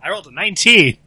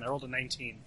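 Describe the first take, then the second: First: Shouted, higher-pitched announcement of a big roll; exultant yell; loud triumphant repeat. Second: Soft, understated dice result; quietly matter-of-fact; quiet report. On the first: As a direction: shout it so everyone hears. Repeats big roll after being missed. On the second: First take of dice result. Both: Real, not acted.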